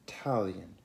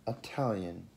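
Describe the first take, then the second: The two takes are said the same way.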